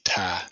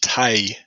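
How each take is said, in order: First: The word is said with a Southern accent. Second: The word is said with a standard accent. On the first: "I'm Southern, so I say tie" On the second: "but it's weak tie, T I E"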